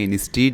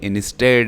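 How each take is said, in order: First: The second vowel is a long 'ee' sound. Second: The second vowel is a short 'eh' sound. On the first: The speaker calls it wrong. "ये इंस्टीड नहीं है" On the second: The speaker calls it right. "ए की आवाज़ यानी ए की sound वो कर रहा है"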